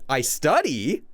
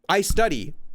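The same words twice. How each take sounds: First: It is said hesitantly, like a partial admission. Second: It is said as a plain, neutral statement. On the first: The speaker admits it only partly. "You're giving the nuance of admitting something" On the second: The speaker simply states a fact. "not I study"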